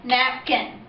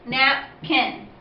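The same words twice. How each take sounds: First: Said in the usual way. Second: Napkin broken as Nap, kin, with a short pause; split into syllables. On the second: Shown as a demonstration. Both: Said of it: "there are two syllables".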